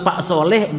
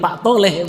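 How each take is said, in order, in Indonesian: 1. Nama itu diawali dengan bunyi s yang jelas. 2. Nama itu diawali dengan bunyi t sebagai gantinya.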